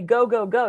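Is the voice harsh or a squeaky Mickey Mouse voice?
harsh. It is said in the coach's harsh voice.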